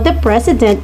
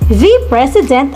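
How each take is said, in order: First: The word 'the' has a short, reduced vowel. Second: The word 'the' has a long 'thee' vowel.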